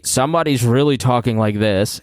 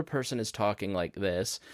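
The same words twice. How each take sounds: First: Said in the usual way. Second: Dropping to a much softer voice; quiet talker. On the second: Shown as a demonstration. Teacher imitating a second speaker on an uneven recording, very quietly. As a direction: say it far softer, like someone barely reaching the mic. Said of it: "another person is talking like this".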